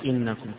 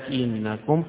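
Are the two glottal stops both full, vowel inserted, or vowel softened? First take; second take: both full; vowel inserted. First: Two full glottal stops with no vowel between. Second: A long a separates two full glottal stops. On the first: "فيقرأ إنكم كغيره" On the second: "وبالإدخال"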